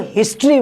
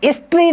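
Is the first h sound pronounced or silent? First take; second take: pronounced; silent. First: The word begins with an h sound. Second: The word begins with a vowel sound. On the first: The speaker calls it right. "इसको हिस्ट्री बोलते हैं" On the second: The speaker calls it wrong. "हम इसको हिस्ट्री नहीं बोलते हैं"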